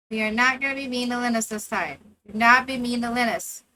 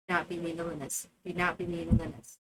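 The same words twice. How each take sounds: First: Not stressed, loud and firm. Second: Low, quick muttered reminder; muttered warning. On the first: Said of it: "repeats warning to her character". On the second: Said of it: "repeats quietly, lower". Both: Real, not acted.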